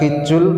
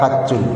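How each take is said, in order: First: The first vowel is an 'i' sound. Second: The first vowel is an 'a' sound. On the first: "Boleh dibaca hijjul" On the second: "boleh dibaca hajjul"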